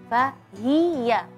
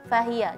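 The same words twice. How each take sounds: First: The vowel after the h is fully pronounced. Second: The vowel after the h is rushed and clipped. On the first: The speaker calls it right. "Jadi harusnya fahiyah" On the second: The speaker calls it wrong. "karena terburu-buru dalam membacanya kesannya fahiyah"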